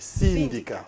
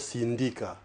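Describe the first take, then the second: First: The stress falls on the first syllable. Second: The stress falls on the last syllable. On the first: The speaker calls it right. "placer cet accent sur la première syllabe" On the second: The speaker calls it wrong. "et non syndicat"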